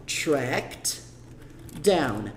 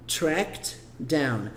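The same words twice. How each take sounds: First: "Tracked" then a pause then "down"; two separate words, "Tracked... down"; split with a pause. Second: "Tracked down" run together so the -ed blends into "down"; "Tracked down" as if the ed were swallowed; linked together. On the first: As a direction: say "Tracked" and "down" apart, with a break between. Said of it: "Claro, pausado é fácil". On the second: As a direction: join "Tracked down" into one sound. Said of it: "você acaba falando igual". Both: Shown as a demonstration.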